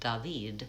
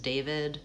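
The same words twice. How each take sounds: First: The name is said with a French pronunciation. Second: The name is said with an American pronunciation. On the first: "if you're in a French speaking country ... it will be more like David" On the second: "say it the way Americans say it"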